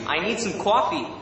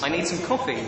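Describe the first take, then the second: First: Higher, put-on American accent, "coffee" as "cwaffee". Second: Said in the usual way. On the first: Shown as a demonstration. Brit trying American phrases for live chat, American accent. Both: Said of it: "my best American accent".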